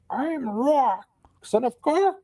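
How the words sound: It is said in a croaking raven voice.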